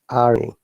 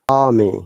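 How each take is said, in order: First: The R sound is clearly pronounced. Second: The R sound is left silent. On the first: "But in American I P A, we must pronounce" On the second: "we do not pronounce R according to the British I P A"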